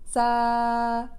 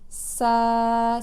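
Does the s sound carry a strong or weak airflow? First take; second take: weak; strong. First: The s is short with greatly reduced airflow. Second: The s is long with strong airflow. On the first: The speaker calls it right. "Je vais sentir un débit d'air très réduit dans ma main" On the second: The speaker calls it wrong. "à la place de"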